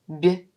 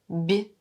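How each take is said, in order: First: The consonant is soft, palatalized. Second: The same.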